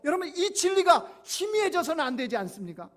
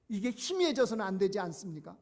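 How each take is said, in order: First: 이 진리가 희미해져서는 안 되지 않습니까 flung out high and loud, falling at the end; emphatic preaching. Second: Said in the usual way. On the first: Acted. Pastor pleading with the congregation, loud emphatic preaching. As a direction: hammer 진리가 hard and let the question fall.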